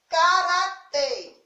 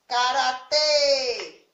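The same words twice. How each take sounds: First: "karatê" said slowly and louder, stressed on final tê; higher, slow "karatê" with closed final ê; showing the stress. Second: "Karatê" called out with a long, drawn-out tê; loud, sustained closed ê ending "Karatê"; calling the syllable. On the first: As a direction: say "karatê" clearly, leaning on tê. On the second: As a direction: stretch the last syllable of "Karatê" like calling someone. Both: Shown as a demonstration. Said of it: "Qual é a sílaba tônica de karatê?".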